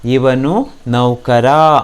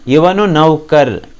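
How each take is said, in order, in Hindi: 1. आखिरी शब्द लंबे 'aa' पर खत्म होता है। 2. आखिरी शब्द व्यंजन पर खत्म होता है। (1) "आ कारांत में ही होना है" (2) "ऐसा मत बोलिए"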